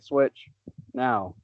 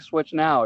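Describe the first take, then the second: First: A short pause separates the two words. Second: The two words run together without a pause. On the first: Now begins a new sentence. The speaker calls it right. "You say switch now" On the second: It sounds like the console is named Switch Now. The speaker calls it wrong. "You just don't say switch now"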